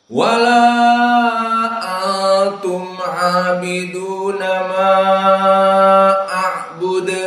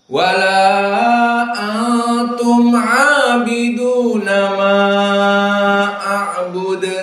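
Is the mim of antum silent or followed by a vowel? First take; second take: silent; silent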